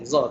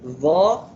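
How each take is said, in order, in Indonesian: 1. Diawali dengan bunyi z yang bergetar. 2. Diawali dengan bunyi th bersuara. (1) "biasanya kita sebut Za. Nak senang kan?" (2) "yang betul lah caranya Dha"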